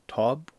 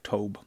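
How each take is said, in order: First: The name does not rhyme with globe. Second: The name rhymes with globe. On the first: "would it be Tobe or Tob?" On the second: "Rhyme with globe"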